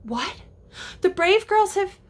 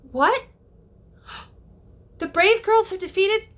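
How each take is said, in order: First: Put-on sudden high rise on girls; surprised reaction. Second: High gasping disbelief; gasp, then ask in shock; shocked reaction. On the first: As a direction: react as if startled by the news. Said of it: "change and react to what Tink said". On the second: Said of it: "because he says". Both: Shown as a demonstration.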